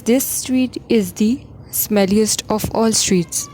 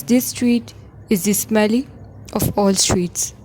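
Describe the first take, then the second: First: This street is the smelliest of all streets read very slowly; slow model answer. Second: Said in the usual way. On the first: Shown as a demonstration. Teacher reading the corrected sentence to students, slowly. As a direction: lay out each word of the right answer slowly. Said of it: "The answer is". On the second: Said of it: "Number one is".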